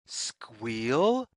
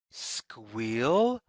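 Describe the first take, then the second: No difference in how they are said.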